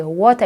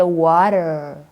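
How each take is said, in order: First: "water" as wɔta, no r, open a; "water" said Kenyan-style, ending in a; Kenyan pronunciation. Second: "water" as wɔtə˞, r-coloured ending; slower "water" with an American r at the end; American pronunciation. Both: Retold or imitated. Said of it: "you don't say water, I say water".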